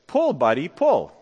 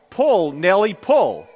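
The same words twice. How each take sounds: First: Easy, understated call to a horse; nonchalant. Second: Half-raised farmer's command to a horse; mild storyteller's yell. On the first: Farmer to his horse Buddy, nonchalantly, no yelling. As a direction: say it casually, without pushing. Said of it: "the farmer nonchalantly said". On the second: Farmer urging his horse to haul the car, mildly yelled. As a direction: call it out firmly, a bit louder. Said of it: "and yelled". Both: Acted.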